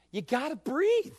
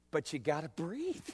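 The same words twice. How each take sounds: First: "breathe" lifted higher as an urgent plea; raised refrain. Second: "breathe" dropped much softer, almost to himself; soft refrain. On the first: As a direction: repeat it higher, pressing the point. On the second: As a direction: say it softly, letting it sink in. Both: Acted. Preacher repeats his refrain.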